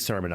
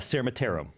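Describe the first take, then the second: First: The name is said without a t sound. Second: The name is said with a t sound. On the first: The speaker calls it right. "There's no T" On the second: The speaker calls it wrong. "That's how we usually pronounce it"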